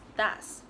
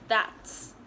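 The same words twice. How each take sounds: First: No T sound is heard before the S. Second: A T sound is heard before the S. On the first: The speaker calls it wrong. "you guys normally skip it and only pronounce it as that's" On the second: The speaker calls it right. "So it's pronounced as that's"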